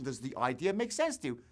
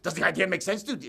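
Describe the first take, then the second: First: It sounds warm and caring. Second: It sounds cold and uncaring.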